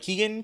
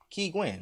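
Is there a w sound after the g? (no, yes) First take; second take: no; yes. First: The second syllable is said without a w sound. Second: The second syllable is said with a w sound. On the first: The speaker calls it wrong. "I do hear people being like Keegan" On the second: The speaker calls it right. "like a penguin"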